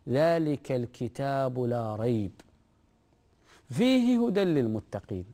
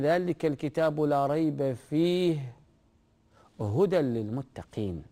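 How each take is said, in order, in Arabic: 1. تأتي الوقفة قبل كلمة fihi. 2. تأتي الوقفة بعد كلمة fihi. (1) "هنا قال فيه هدى للمتقين" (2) "تقف عند قوله لا ريب فيه وتبدأ هدى"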